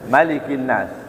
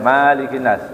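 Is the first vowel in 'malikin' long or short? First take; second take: short; long. First: The first vowel of malikin is short. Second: The first vowel of malikin is long. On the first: The speaker calls it right. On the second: The speaker calls it wrong. "Enggak boleh malikin nas, enggak boleh"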